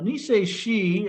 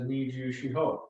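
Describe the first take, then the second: First: The name is read in its Okinawan form. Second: The name is read in its Japanese form. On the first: "the Okinawan pronunciation" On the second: "the Japanese pronunciation"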